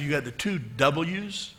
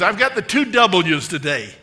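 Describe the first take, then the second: First: Said in the usual way. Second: Put-on spirited old lady, loud and higher-pitched; playful raised-voice impression; Dorothy Boyd. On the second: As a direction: announce it proudly in an imitated old lady's voice. Retold elderly woman's proud announcement.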